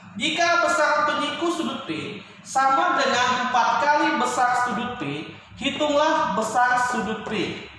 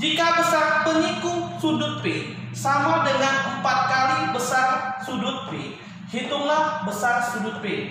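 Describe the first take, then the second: No difference in how they are said.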